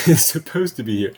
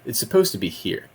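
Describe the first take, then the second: First: Starts with a laugh, a bit louder; amused repeat of It's supposed to be here; chuckling at the mismatch. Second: Said in the usual way. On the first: Real, not acted.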